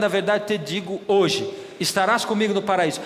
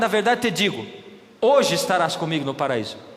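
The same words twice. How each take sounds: First: The pause comes right after 'hoje'. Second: The pause comes right before 'hoje'. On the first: "se eu mudar o ponto, a vírgula, muda tudo" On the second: "Sentido diferente ou não?"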